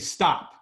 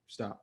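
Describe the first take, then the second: First: It is said loudly and projected. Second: It is said low and mumbled.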